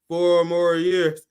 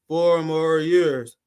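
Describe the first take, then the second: No difference in how they are said.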